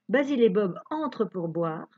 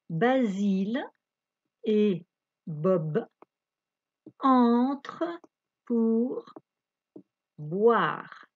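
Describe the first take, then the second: First: It is read at a faster pace. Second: It is read at a slower pace.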